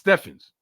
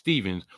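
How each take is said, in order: First: The middle consonant is an F sound. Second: The middle consonant is a V sound. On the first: The speaker calls it right. "my mama named me Steffens" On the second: The speaker calls it wrong. "people pronounce it Stevens, which they're damn wrong for pronouncing it like that"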